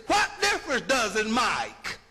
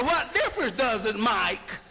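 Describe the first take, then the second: First: What difference does it Mike, with Mike low and falling; run together as Mike. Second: What difference does it Mike, again slurred into Mike; run together as Mike. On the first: Showing the class how make turns into Mike. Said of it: "But if I say". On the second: Repeating the Mike example for the class. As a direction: say it fast, make sounding like Mike. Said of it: "If I say". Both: Shown as a demonstration.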